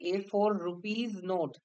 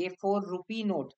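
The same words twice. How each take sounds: First: "rupees" ending in an audible z sound; plural RUPEES. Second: "rupee" ending on an open ee vowel; singular RUPEE. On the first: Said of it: "এটা কি ঠিক? নাকি". ("rupees" বহুবচনের s-সহ উচ্চারণ) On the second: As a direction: say "rupee" with no final s. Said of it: "কোনটা ঠিক?". ("rupee" শেষে s ছাড়া উচ্চারণ) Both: Shown as a demonstration.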